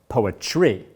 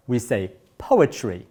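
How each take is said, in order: First: "poetry" stressed late, on its final syllable; misplaced stress. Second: Said in the usual way. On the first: Shown as a demonstration. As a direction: say "poetry" slowly, wrongly punching the "TRY" at the end. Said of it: "and not poetry". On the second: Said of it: "stressing some syllables with more volume".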